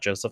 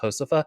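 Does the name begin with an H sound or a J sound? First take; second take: J sound; H sound. First: The name begins with a J sound. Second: The name begins with an H sound. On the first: The speaker calls it wrong. "it's not Josefa" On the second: The speaker calls it right. "J makes an H sound"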